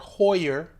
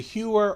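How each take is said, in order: First: The name is said like 'hoyer'. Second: The name is said like 'hewer'. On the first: This is how other people say it should be said. The speaker calls it right. "People tell me it's Hoyer" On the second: This is how the speaker has always said it. The speaker calls it wrong. "I've been calling it Heuer for years"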